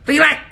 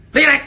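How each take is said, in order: Both takes have the same delivery.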